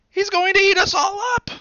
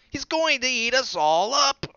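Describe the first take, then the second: First: Very high, loud frightened scream; high loud terrified children's scream. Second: High, loud panicked warning; loud high alarmed child voice; alarmed little bunny. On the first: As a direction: scream in terror as a group of kids. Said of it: "they screamed". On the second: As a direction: shout the warning like a scared child. Dot warns about the wolf. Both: A narrator's reading.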